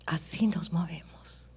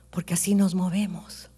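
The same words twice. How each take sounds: First: "así nos movemos" echoed in a near whisper, slow; a soft, slow whispered echo of the preacher's own line; hushed whisper. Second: Said in the usual way. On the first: Real, not acted. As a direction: let the repeat sink into a breathy hush. Echoed softly as reflection.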